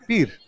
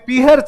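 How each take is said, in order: First: The middle h sound is dropped entirely. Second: A clear h sound is said in the middle. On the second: "आप कभी नहीं सुनते कि mummy पीहर"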